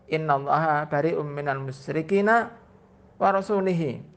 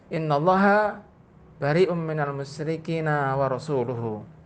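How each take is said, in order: First: The ending of rasul is said with an i vowel. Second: The ending of rasul is said with a u vowel. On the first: God disowns the polytheists and also the Messenger. The speaker calls it wrong. "laisa hakadha ya Arabi" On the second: God and His Messenger both disown the polytheists. The speaker calls it right. "dibaca lu, dibaca dhamma"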